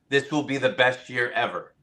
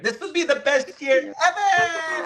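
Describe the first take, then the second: First: It is said in a plain speaking voice. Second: It is said in a peppy cheerleader voice.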